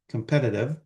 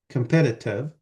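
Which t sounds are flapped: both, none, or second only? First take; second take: both; none. First: Both t sounds are pronounced as flaps. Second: Both t sounds are pronounced as full t. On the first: "or you can flap both of them" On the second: "you don't really have to flap the T"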